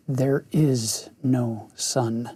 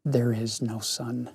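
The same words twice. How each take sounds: First: Slow, grave pronouncement. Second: Soft, low and hushed; softer and deeper. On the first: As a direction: say it slowly and gravely. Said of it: "Slowly and gravely the witch repeated". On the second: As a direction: drop the voice, hush it. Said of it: "in a softer, deeper voice". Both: Acted.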